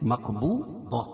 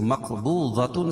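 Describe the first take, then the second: First: The word ends with a silent 'h' sound. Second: The word ends with a full 'tun' ending. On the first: The reciter stops on this word. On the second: The reciter continues without stopping.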